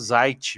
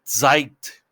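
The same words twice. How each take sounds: First: The word begins with a plain z sound. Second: The word begins with a ts sound. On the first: This is how it is said in Brazil. "aqui no Brasil a gente fala Zeit mesmo" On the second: This is how it is said in German. "parece que tem um Tzinho assim antes do, do Z"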